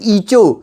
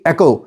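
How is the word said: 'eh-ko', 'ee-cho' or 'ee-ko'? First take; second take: ee-cho; eh-ko. First: It starts with 'ee' and has a 'ch' sound. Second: It starts with 'eh' and has a 'k' sound. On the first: The speaker calls it wrong. "कुछ कहते हैं ईचो" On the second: The speaker calls it right. "But it is actually एको"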